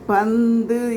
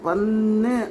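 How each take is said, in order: First: The middle sounds like 'nd', as in panthu. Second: The middle sounds like a doubled plain 'n'. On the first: The speaker calls it right. "அப்படி தான் உச்சரிக்கணும்" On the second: The speaker calls it wrong. "சில பேர் பன்னு பன்னு அப்படின்னு ஒரு மாதிரி உச்சரிக்கிறத"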